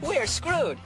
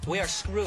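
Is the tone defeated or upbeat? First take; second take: upbeat; defeated. First: It is said in a cheerful, upbeat tone. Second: It is said in a defeated, gloomy tone.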